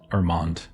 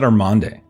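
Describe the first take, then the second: First: The name ends without a final vowel sound. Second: The name ends with a final vowel sound. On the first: "or is it Armand?" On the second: "Do you pronounce the e at the end"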